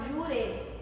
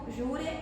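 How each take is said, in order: First: The final vowel is weak and reduced. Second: The final vowel is full and strongly pronounced.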